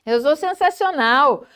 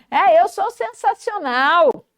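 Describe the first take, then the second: First: Orgulho mais contido; autoelogio animado. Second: Agudo e pausado, cheio de orgulho; elogie-se com gosto; autoelogio animado. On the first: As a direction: afirme com convicção alegre. (elogio a si com leve entusiasmo) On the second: (entusiasmo de quem se valoriza) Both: Shown as a demonstration. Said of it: "Se elogie também".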